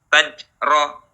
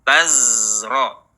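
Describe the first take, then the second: First: The consonant after ta is a j sound. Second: The consonant after ta is a voiced z. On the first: The speaker calls it wrong. "jangan berubah menjadi jim" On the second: The speaker calls it right. "alirkan suaranya"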